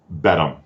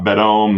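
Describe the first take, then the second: First: The name ends with a short 'um' sound. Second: The name ends with a long 'ohm' sound. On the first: The speaker calls it right. "I would say Bedham" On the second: The speaker calls it wrong. "not Bedome"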